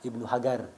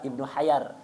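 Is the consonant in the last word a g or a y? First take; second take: g; y. First: The last word has a hard g sound. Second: The last word has a y sound. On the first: "daerah Aden itu apa? Eh, jimnya itu jadi G" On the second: "orang Tarim jimnya jadi ya"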